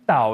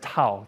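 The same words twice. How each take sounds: First: The word begins with a D sound. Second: The word begins with a T sound. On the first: The speaker calls it right. "is the correct pronunciation" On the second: The speaker calls it wrong. "many of you may have heard Tao"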